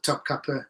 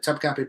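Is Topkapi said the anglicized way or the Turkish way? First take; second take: Turkish; anglicized. First: The name is said in a Turkish way. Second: The name is said in an anglicized way. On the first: The speaker calls it right. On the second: The speaker calls it wrong.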